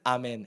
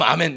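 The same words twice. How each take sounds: First: It sounds grudging and reluctant. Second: It sounds more willing and wholehearted.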